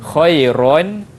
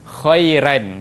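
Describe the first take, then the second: First: The r sound is heavy and thick. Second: The r sound is light and thin. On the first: This is the usual reading. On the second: This is the Warsh reading.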